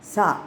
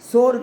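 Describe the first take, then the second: First: The word ends with an open 'ah' sound. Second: The word ends with an 'or' sound. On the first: The speaker calls it right. "எஸ்ஏ அந்த sound வரணும்" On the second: The speaker calls it wrong. "சோர் கிடையாது"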